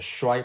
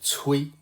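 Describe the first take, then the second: First: The syllable is pronounced shuai. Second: The syllable is pronounced cui. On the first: This is the modern pronunciation. "So here we use the Shui pronunciation" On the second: This is possibly the ancient pronunciation. "in some textbook, uh, this character is pronounced 催"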